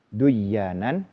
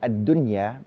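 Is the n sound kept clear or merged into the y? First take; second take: merged; clear. First: The n sound merges into a doubled y. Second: The n sound is kept clear before y. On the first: The word seems to come from a different root. The speaker calls it wrong. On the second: The word keeps its proper root letters. The speaker calls it right. "kenapa dibaca ad-dunya izhar"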